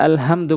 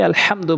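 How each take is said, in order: First: আলহামদু with a light, unpressed h; light H mistake. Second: আলহামদু with h squeezed from mid-throat; pharyngeal-h version of আলহামদু; big throat H. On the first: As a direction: say আলহামদু with a plain glottal h, as learners do. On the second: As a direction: press the h in আলহামদু, Arabic haa. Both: Shown as a demonstration. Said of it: "বড় হা এনে উচ্চারণ করতে হবে".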